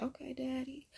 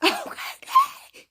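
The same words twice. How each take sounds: First: Soft, higher-pitched coy purr; coy swooning reply. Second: Loud, very high, slow mock squeal; hammed-up swooning squeal. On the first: Acted. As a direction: give in softly, higher and quieter. Swooning reaction to an accent. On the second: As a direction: swoon loudly in an exaggerated high voice. Repeats the swoon, hammed up, laughing.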